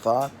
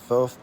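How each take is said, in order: First: It begins with th and ends with t. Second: It begins and ends with a th sound. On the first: Other people's way of saying the name. "Other people say thought or taught" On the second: The speaker's own way of saying the name. "I say Thoth"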